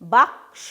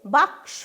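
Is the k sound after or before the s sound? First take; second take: before; before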